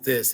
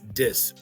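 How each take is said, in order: First: The word begins with a th sound. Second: The word begins with a d sound.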